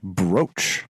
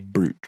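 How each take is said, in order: First: The vowel is a long 'oh' sound. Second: The vowel is a long 'oo' sound. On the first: The speaker calls it right. "But it is it is in fact brooch" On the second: The speaker calls it wrong. "I have heard people pronounce that as a brooch"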